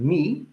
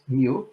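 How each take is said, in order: First: The letter name sounds like 'me'. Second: The letter name sounds like 'mew'. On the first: The speaker calls it right. "I pronounce this letter um, uh, mi" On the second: The speaker calls it wrong. "like many people do, not mu"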